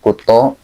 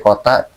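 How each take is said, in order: First: The final vowel is an 'o' sound. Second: The final vowel is an open 'a' sound. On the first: This is how East Javanese speakers say it. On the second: This is the original form of the word.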